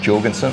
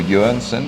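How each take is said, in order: First: The name is pronounced with English sounds. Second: The name is pronounced with Danish sounds.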